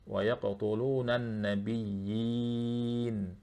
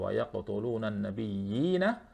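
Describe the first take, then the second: First: The phrase stops on the n consonant. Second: The phrase ends with a final a vowel. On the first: "ketika kita wakaf di situ" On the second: "nabiyyina itu kan dua harokat"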